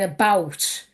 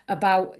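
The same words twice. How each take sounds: First: The final T sound is clearly pronounced. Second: The final T sound is dropped, stopping short. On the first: "instead of saying about" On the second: "you won't hear the T on the end, it'll just be a bar"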